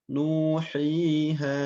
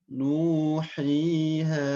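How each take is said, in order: No difference in how they are said.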